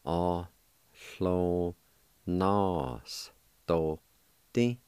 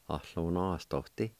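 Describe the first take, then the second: First: Very slow, drawn-out Ohlonostoti; slow syllable by syllable. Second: Said in the usual way. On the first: Shown as a demonstration. Teacher slowly demonstrating Ohlonostoti to learners. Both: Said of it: "it's pronounced like this".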